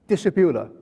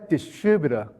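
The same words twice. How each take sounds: First: The stress is on the first syllable. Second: The stress is on the second syllable. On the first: "a Chinese distributor, the stress is the first one" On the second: "The U S distributor, the stress is the second syllable"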